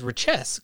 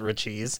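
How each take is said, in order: First: The name ends with an 'ess' sound. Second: The name ends with an 'eez' sound. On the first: This is the intended, French-like pronunciation. The speaker calls it right. "he actually refers to it as richesse, closer to the French word" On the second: This is the usual informal pronunciation. The speaker calls it wrong. "we call it Richies"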